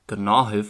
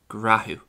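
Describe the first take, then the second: First: The consonant after g is an n sound. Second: The consonant after g is an r sound. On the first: This is the non-Ulster pronunciation. "While I would pronounce this word as gnáthibh" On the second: This is the Ulster pronunciation. "an Ulster speaker would more often than not pronounce it as grathú"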